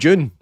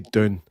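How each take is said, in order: First: The word begins with a J sound. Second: The word begins with a clear D sound. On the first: This avoids a local word with another meaning. "So we need to call it June" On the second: This is how Americans say it. "Like they say dune"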